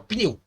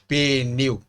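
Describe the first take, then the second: First: The p and n run together with no vowel. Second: An extra vowel separates the p and n. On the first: The speaker calls it right. "fala pneu" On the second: The speaker calls it wrong. "Você não diz pneu"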